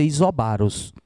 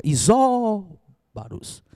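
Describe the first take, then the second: First: "isobaros" with stress moved onto BA; misplaced stress. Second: "Isóbaros" with SÓ high and long drawn out; stressed tonic syllable. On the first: Teacher warning against a slip, mis-stressed demo. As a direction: say "isobaros" as iso-BA-ros, accent misplaced. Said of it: "pra não dizer isobaros". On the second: Teacher showing the tonic syllable, exaggerated stress. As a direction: stretch and lift the SÓ in "Isóbaros", then drop. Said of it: "olha a sílaba tônica". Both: Shown as a demonstration.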